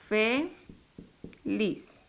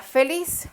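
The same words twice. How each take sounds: First: "Feliz" as "Fe ... liz", softer; syllable by syllable. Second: Said in the usual way. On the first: Shown as a demonstration. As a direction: split "Feliz" with a clear pause. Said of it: "dividámosla". ("Fe ... liz", separado en sílabas) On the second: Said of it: "Cuál es la sílaba tónica".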